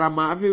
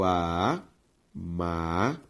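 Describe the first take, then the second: First: Said in the usual way. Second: "amável" very slowly as a, má, vel; long pause after each syllable of "amável". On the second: Shown as a demonstration. Teacher separating a word for the class, syllable by syllable. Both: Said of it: "ao separar amável".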